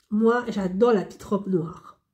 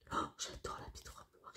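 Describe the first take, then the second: First: Said in the usual way. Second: Breathy whispered aside, barely voiced. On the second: Real, not acted. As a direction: lean in and whisper it like a secret. Whispered aside about perfume. (chuchoté)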